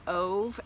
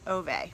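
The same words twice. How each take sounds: First: The name is said in an anglicized way. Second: The name is said as two syllables, oo-veh. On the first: The speaker calls it wrong. "which I knew was wrong, but it's just how I was pronouncing it" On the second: The speaker calls it right. "O O O slash V E H. It's a Swedish name"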